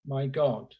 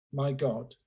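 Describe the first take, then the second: No difference in how they are said.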